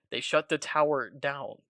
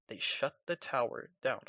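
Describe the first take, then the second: First: Slow, deliberate shut the tower down; spelling out "down" slowly after misreading; careful correction. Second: Said in the usual way. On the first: Shown as a demonstration. Fixing a misread line, slowly and carefully. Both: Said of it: "not down".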